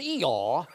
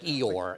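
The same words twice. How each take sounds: First: The final R sound is dropped. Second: The final R sound is clearly pronounced. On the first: "you didn't pronounce your R's" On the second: "It wasn't like Eeyore"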